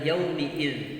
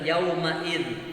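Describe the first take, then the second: First: The vowel after the 'm' is an 'i'. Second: The vowel after the 'm' is an 'a'. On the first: The speaker calls it right. "Ini bacanya adalah yaumiid" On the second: The speaker calls it wrong. "yang sering itu adalah yaumaid"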